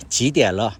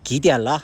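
First: 지디알러 opening on a j sound; 지디알러 with j, not g; standard Mandarin pronunciation. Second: 기디알러 opening on a hard g; Shandong dialect pronunciation. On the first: Shown as a demonstration. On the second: Retold or imitated. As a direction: say 기디알러 with "gi" replacing "ji". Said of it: "이런 식으로 했던 기억이 나고".

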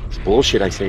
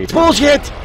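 First: Said in the usual way. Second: Mock indignant outburst on bullshit; high outraged shout. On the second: Shown as a demonstration. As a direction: let bullshit burst out, much higher.

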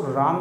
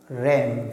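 First: राम with a long open "aa"; wrong reading "raam". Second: रैम with a short "ae" as in cat; correct reading "ram". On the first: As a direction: mistaken long-vowel राम. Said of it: "ये राम शब्द नहीं है". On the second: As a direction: say रैम to rhyme with "jam". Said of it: "पढ़ा जाएगा". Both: Shown as a demonstration.

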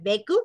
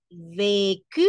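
First: "vécu" said quickly without a full é; wrong quick vécu. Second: "vécu" slow, full é, rising ending; correct slow vécu. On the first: Teacher showing what it is not, wrong quick vécu. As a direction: rush through "vécu" as the mistaken version. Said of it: "no es vécu". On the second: Teacher correcting with the accented E, correct slow vécu. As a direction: draw out "vécu" in two clear syllables. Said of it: "porque sí va tildada la E". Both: Shown as a demonstration.

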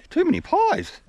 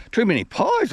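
First: Much higher squeaky repeat of "pies"; joke repeated much higher. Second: Higher and louder quip; jokey quip. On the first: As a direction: push the repeat way up high. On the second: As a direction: toss off the joke about "pies". Joking about being out of breath. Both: Acted.

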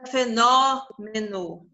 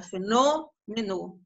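First: Fenômeno slowly, with a wrongly open Ó on NÓ; slow fenômeno with exaggerated open NÓ; contrasting open O. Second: Fenômeno slowly, with a closed Ô on NÔ; slow demo of fenômeno with closed Ô. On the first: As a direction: stretch fenômeno and open the stressed O wide, as a counterexample. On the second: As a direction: draw out fenômeno, rounding the stressed O closed. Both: Shown as a demonstration. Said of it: "Olha como é que o O é fechado".

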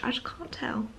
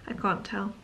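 First: Soft breathy whisper. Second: Said in the usual way. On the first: Real, not acted. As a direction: drop to a secret whisper. Whispered then repeated aloud.

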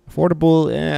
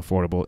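First: High, loud incredulous "Affordable"; "Affordable" jumping up high and loud, questioning the claim; sceptical echo. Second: Said in the usual way. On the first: Real, not acted. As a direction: throw "Affordable" back in doubt, pitched way up.

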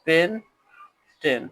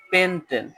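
First: pentane drawn out very slowly; slow demo. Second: Said in the usual way. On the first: Shown as a demonstration. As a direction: stretch pentane for students. (ধীরে টেনে pentane) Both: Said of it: "এটা উচ্চারণ হবে".

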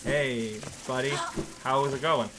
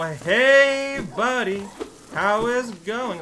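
First: Said in the usual way. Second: Much higher and louder, bright and eager; "Hey" jumps high and loud, then a chirpy "buddy, how is it going?"; cheery greeting. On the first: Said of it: "And you're like". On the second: Pretend. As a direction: greet the poor bug like an old friend. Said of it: "And you go".

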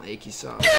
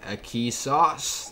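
First: Said in the usual way. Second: "A key sauce" stretched slowly, each word spaced out; drawn-out channel name. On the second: Shown as a demonstration. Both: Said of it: "That's actually the name of my channel".

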